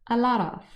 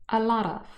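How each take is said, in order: Both takes have the same delivery.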